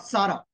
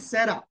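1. नाम हिंदी उच्चारण से बोला गया है। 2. नाम अंग्रेज़ी उच्चारण से बोला गया है। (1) "हिंदी में प्रोनाउंस नहीं करना" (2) "इंटरनेशनली उसको सारा पड़ेगा"

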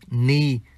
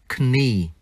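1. Chữ k ở đầu là câm. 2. Chữ k ở đầu được phát âm. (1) "bỏ chữ K, chỉ đọc là knee" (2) "chứ không đọc là knee"

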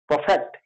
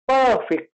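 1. Stress दूसरे अक्षर पर है। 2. स्ट्रेस पहले अक्षर पर है। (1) "not perfect" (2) "word stress will come on the first letter and it will be pronounced as perfect"

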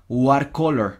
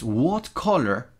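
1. La t en 'what' suena como una r suave. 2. La t en 'what' suena como una t. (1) "No es what color" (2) "Aquí la T no suena como R"

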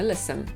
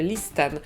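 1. T w środku jest ciche. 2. T wymawia się w środku. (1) "a mówimy listen" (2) "przecież piszemy listen"

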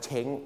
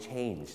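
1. สระ 'eh' สั้นๆ ลงท้ายด้วยเสียง ng ธรรมดาครับ 2. สระ 'ay' ลงท้ายด้วยเสียง nj ครับ (1) "หลายคนชอบออกเสียงว่าเช้ง" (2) "ต้องออกเสียง change"

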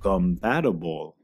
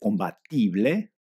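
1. Se pronuncia con sonidos y acento ingleses. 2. Se pronuncia con sonidos y acento españoles. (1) "Ahora escucha y repite la pronunciación correcta" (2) "Si uno le dice compatible a uno de lengua madre, no lo entenderán"

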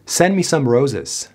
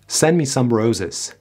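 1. مصوت 'some' یک شوای ضعیف است. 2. مصوت 'some' یک شوای ضعیف است.

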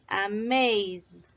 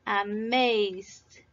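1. La terminación es solo el sonido de la d sonora. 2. La terminación es solo el sonido de la d sonora.

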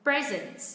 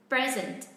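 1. Trọng âm rơi vào âm tiết thứ nhất. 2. Trọng âm rơi vào âm tiết thứ nhất.

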